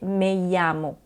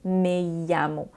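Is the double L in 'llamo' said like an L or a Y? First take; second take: Y sound; Y sound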